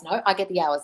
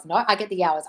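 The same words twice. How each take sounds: First: Said in the usual way. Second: I said firm and assured; stress on I. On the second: Shown as a demonstration. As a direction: lean into the word I as a claim. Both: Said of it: "'cause I say so and I run this shit".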